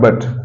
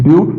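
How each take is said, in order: First: The vowel sounds like the 'u' in cut. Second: The vowel sounds like the 'u' in cute. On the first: The speaker calls it wrong. "Not बट" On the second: The speaker calls it right. "It's ब्यूट"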